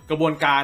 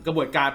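Both takes have the same delivery.

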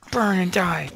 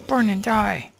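First: Loud taunting yell; shout. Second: Louder, higher taunting yell; shout. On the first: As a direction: yell it at the burning mobs. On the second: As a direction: really yell it at them. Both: Real, not acted. Yelling at burning mobs.

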